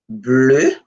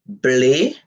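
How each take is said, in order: First: Bleu said the French way, rounded vowel like blø; French pronunciation. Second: Bleu said the Creole way, plain e vowel like ble; Creole pronunciation. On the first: Teacher modelling French Bleu for the class, rounded vowel. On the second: Teacher modelling Creole bleu for the class, plain e vowel. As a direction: Creole bleu ending in a flat e. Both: Shown as a demonstration. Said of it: "En créole".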